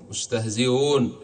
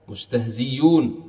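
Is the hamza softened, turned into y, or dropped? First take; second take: softened; y sound. First: The hamza is softened toward a w sound. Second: The hamza is replaced by a y sound. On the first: It follows the grammatical rule. "تسهيلها بينها وبين الواو" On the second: It follows an alternative grammatical view. "إبدالها ياء"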